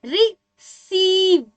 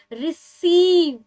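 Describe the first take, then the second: First: रिसीव drawn out very slowly, the long ee held; very slow stretched demo. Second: रिसीव said slowly, the long ee drawn out; slow demo pronunciation. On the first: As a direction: hold the ee in रिसीव for a long time. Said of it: "अब देखिए क्या आ रहा है". (बहुत धीरे खींचकर रिसीव) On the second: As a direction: stretch the सी in रिसीव. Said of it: "कैसे, बोल के देखते हैं". (धीरे से रिसीव बोलकर दिखाना) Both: Shown as a demonstration.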